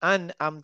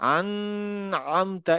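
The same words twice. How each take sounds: First: The n is short and clear, without nasal hum. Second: The n is held with a nasal hum. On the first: The speaker calls it right. "নুনের আওয়াজটা খুব ক্লিয়ার শুনতে পারবো" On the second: The speaker calls it wrong. "আমি কিন্তু বলবো না আন আমতা, এরকম না"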